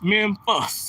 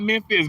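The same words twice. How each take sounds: First: The last syllable sounds like 'fus'. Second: The last syllable sounds like 'fis'. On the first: The speaker calls it right. "Memphis with an F, E M E M F U S" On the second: The speaker calls it wrong. "not Memphis"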